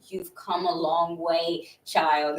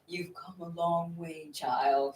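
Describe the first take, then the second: First: It is said in the speaker's own voice. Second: It is said in an old man's voice.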